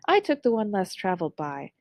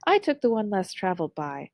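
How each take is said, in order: First: It is read in a bright, cheery, uplifting tone. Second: It is read in a bright, cheery, uplifting tone.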